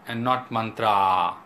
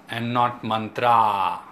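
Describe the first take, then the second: No difference in how they are said.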